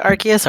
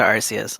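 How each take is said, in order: First: Arceus with a K sound, AR-kee-us; hard C in Arceus. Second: Arceus with an S sound, AR-see-us; soft C in Arceus. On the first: Asking co-host which is right, hard-C Arceus. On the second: Asking co-host which is right, soft-C Arceus. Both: Shown as a demonstration. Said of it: "Is it Arceus or Arceus?".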